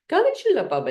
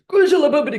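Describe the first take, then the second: First: It is said in a sad way. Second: It is said in an angry way.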